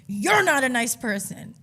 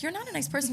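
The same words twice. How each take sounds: First: Loud, slow, higher-pitched parroting; imitated exaggerated jeer; mocking comeback. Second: High-pitched, restrained dig; retold prim put-down; passive-aggressive. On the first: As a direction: throw their words back loudly and drawn out. Bartender mockingly throws insult back. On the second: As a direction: deliver the insult in a high, polite voice. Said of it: "Then I was passive".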